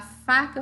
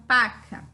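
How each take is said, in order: First: Said in the usual way. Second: "paca", the f stopped into a p; child's f to p swap. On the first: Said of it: "Ao invés de eu falar faca". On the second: Shown as a demonstration. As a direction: say "paca" with a p instead of f. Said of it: "eu falo paca".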